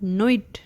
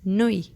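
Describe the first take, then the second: First: The final T is pronounced at the end. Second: The final T is left silent at the end. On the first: The speaker calls it wrong. "It's not nuit" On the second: The speaker calls it right. "The T at the end of word nuit is definitely silent"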